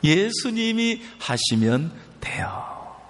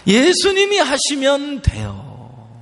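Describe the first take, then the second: First: Slow, whispered "예수님이 하시면 돼요". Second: Higher, slow "예수님이 하시면 돼요" with 예수님이 stressed; proclaiming. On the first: Preacher whispers the answer back to the congregation. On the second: Preacher proclaims the key line to the congregation, high and slow. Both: Shown as a demonstration. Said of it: "누가 하시면 된다고요".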